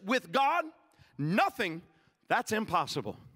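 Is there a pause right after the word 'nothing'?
yes. There is a clear pause right after 'nothing'. Bringing nothing to God without something happening cannot occur. "I read it a little bit differently one time. I read it like this"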